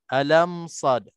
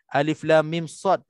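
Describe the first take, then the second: First: The first letters are blended into one word. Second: Each letter name is said separately in full. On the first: The speaker calls it wrong. "dia baca alam, sad" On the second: The speaker calls it right. "huruf muqatta'ah ini ... dibaca dengan ejaan asalnya dengan menyebutkan satu huruf satu huruf"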